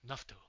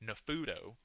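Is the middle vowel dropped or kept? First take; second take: dropped; kept. First: The middle vowel is clipped out. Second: The middle vowel is fully pronounced. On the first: The speaker calls it right. "You try to clip every vowel every vowel sound out" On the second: The speaker calls it wrong. "in America, in English, I would say Nafudo, right? Wrong"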